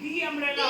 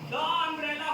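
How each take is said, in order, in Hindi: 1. 'The' में लंबा 'ee' स्वर है, जैसे 'thee'। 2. 'The' में छोटा, हल्का स्वर है, जैसे 'thuh'। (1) "दी अम्ब्रेला होगा" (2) "द अम्ब्रेला होगा"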